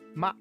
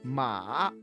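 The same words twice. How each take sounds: First: The pitch goes down on the syllable. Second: The pitch dips down and then rises. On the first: "the fourth tone is down tone" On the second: "First it will go down and then it will rise"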